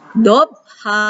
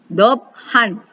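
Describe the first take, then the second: First: The word ends in a lengthened vowel, no n. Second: The word ends short with an n sound. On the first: The reading stops at this word. "Panjangkan dua harokat ya" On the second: The reading continues to the next word. "maka ini dibaca tanwin biasa. Jadi tidak panjang"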